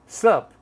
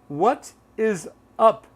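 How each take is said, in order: First: Only a single short syllable remains. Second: All three words are said in full. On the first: "Or sup" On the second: "instead of what is up"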